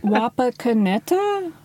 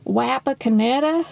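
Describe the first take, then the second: First: The name is said with a Swedish-style accent. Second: The name is said with an American accent. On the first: "When you say it almost in a Swedish style" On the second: "Do you want me to say it with an American accent?"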